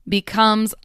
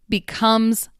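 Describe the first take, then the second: No difference in how they are said.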